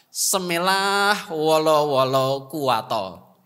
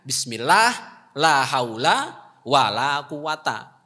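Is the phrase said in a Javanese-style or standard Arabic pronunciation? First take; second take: Javanese-style; standard Arabic. First: It has local Javanese-style Arabic sounds. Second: It has standard, fluent Arabic sounds. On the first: "khas dari Ngek Sigondo" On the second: "itu maksudnya"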